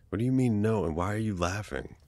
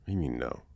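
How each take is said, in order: First: Higher and louder, disbelieving; indignant disbelief. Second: Said in the usual way. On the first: Acted. Friend says they never knew, incredulous. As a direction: push back in mock outrage. Friend denies knowing about crush.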